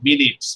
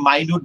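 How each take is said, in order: First: The first vowel is a short 'i' sound. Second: The first vowel is a long 'eye' sound. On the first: The speaker calls it right. "বলবা meeting মিনিটস" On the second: The speaker calls it wrong. "অনেকে মাইনুট বলতে পারো, কিন্তু আজকে থেকে কোনোদিন মাইনুট বলবা না"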